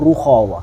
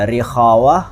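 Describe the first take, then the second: First: The first vowel is a u sound. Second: The first vowel is an i sound. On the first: "Atau ada juga yang ruhawa" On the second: "lebih cocok atau lebih pas itu sebetulnya rikhawa"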